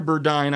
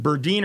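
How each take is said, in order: First: "Burdine" ending like "dine"; alternative name pronunciation. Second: "Burdine" ending like "deen"; alternative name pronunciation. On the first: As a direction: say "Burdine" with a long i, rhyming with "fine". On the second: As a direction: say "Burdine" with a long ee in the second syllable. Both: Shown as a demonstration. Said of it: "I apologize if I'm mispronouncing it".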